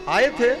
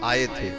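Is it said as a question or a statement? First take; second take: question; statement. First: It is said as a question. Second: It is said as a statement. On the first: Asks whether he came or not. "तो ये प्रश्न हो गया" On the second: Confirms that he came. "तो ये उत्तर है"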